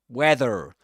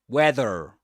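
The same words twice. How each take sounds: First: The final R is pronounced. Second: The same.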